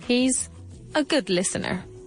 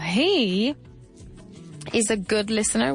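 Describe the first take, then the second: First: The word 'he' carries no special stress. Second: The word 'he' carries strong stress. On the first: It answers what he is like. "Tal cual" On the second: It answers who is a good listener. "si pongo el énfasis en he"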